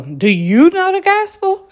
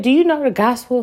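First: Much higher, louder hammed-up preacher voice; high, loud mock evangelist pitch. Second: Lightly voiced question from a stranger; a hint of the street preacher asking; quoting the stranger. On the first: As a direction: overdo the stranger's eager question. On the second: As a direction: ask it like the man did, lightly. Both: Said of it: "Some man just literally said".

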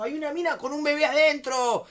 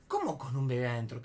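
First: High, loud frantic outburst; pánico imitado. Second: Puzzled question, far below the frantic voice; incredulidad contenida. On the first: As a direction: blurt it out as the panicked friend. Ingeniero desencajado, le piden calma. (imitando un grito desesperado) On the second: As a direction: ask it back, not understanding. Él repite sin entender. (pregunta desconcertada, sin gritar) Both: Retold or imitated.

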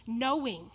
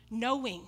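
Both takes have the same delivery.

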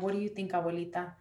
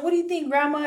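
First: Softly retold question to grandma; gentle question. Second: High, louder retold question to grandma; raised, lively "what do you think"; animated question. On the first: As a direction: ask quietly, leaving space to answer. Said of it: "giving her the space to process". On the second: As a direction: ask it eagerly, acting it out. First retold asking of grandma.

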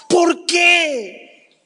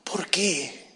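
First: Shouted why. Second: "¿Por qué?" breathed in a broken whisper; whispered why. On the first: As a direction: cry out "¿Por qué?" to heaven. ("¿Por qué?" gritado con angustia) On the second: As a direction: let "¿Por qué?" fall to a hush. ("¿Por qué?" susurrado) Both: Shown as a demonstration.

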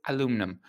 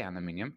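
First: "aluminum" stressed on LU, no -ee-um; American pronunciation. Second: "aluminium" with a final -ee-um; British pronunciation. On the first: Retold or imitated. Parent quoting what the son hears, "aluminum" said the American a-LOO-mnum way. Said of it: "he says aluminum". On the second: Shown as a demonstration. Parent on son's American shows, "aluminium" said the British -MIN-ee-um way. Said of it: "he doesn't say aluminium".

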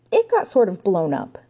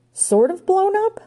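First: Said in the usual way. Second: Very high, slow, rising disbelief; aghast echo. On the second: A narrator's reading. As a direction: stretch it out in high-pitched shock. Ranger appalled by the news.

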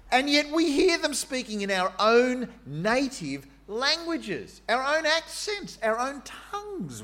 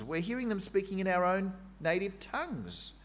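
First: Much higher, slow, wondering exclamation; amazed crowd. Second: Said in the usual way. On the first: Acted. Jerusalem crowd hearing their own languages, high amazed wonder. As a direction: marvel aloud, stretching each phrase. Crowd quote in Pentecost retelling.

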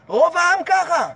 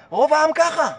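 First: ככה drawn out slow with a falling end; slow down and lean on ככה; slow emphatic repeat. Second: Said in the usual way. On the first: Shown as a demonstration. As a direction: repeat it slowly for weight.

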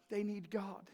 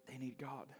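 First: Said in the usual way. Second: Hushed repeat. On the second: Real, not acted. Repeated line, quiet echo.

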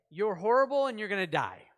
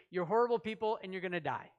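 First: Loud, blunt doom message; a prophet's loud condemnation; harsh proclamation. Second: Fast, dismissive doom; hurried harsh sentence; quick blunt verdict. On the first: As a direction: bark the verdict at the city. Jonah's harsh message voiced. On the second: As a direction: rattle off the condemnation fast. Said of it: "he translated it into". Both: Acted.

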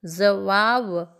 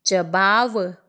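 First: जवाब with z, slow and careful; slow, correct z in जवाब; correct pronunciation. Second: जवाब with a plain j, the wrong way; जवाब said wrongly, hard j; wrong pronunciation. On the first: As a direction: stretch out जवाब with a clear z sound. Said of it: "शुद्ध रूप होगा". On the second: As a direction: say जवाब as "jabab" with j sound. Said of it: "अशुद्ध शब्द है". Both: Shown as a demonstration.

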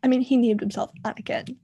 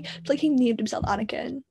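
First: Said in the usual way. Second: Hushed unvoiced aside; whispered mock disbelief at the name. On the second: Shown as a demonstration. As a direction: drop to a secret whisper. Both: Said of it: "repeats the line in a whisper".

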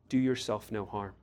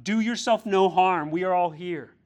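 First: Gentle appeal. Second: A loud, higher cry; Paul shouting to the jailer, raised and loud. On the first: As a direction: speak it personally to the congregation. Applies the verse to listeners. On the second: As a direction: call out urgently to save him. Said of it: "Paul shouted". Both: Acted.

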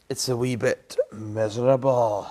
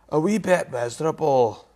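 First: Said in the usual way. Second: Scottish Inverness accent, pitched higher; light Inverness Scots accent. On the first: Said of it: "that's a bit of an Inverness accent". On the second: Shown as a demonstration. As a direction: repeat it with a Highland Inverness lilt. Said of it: "that's a bit of an Inverness accent, that one".

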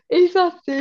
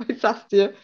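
First: "ich sag's dir" pitched high and loud; emphatic repeat. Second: Said in the usual way. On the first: Real, not acted.

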